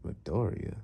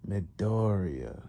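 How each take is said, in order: First: Puzzled musing. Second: Very slow, drawn-out name; musing villain. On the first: Master puzzles over the name. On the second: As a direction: stretch "Midoriya" out, pondering it. Master muses on the name. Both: Retold or imitated.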